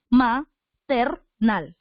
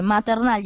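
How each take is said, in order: First: Maternal slowly split into ma, ter, nal; ma... ter... nal, each syllable apart. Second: Said in the usual way. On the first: Shown as a demonstration. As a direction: say Maternal in three spaced beats. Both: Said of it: "Está correctamente separada".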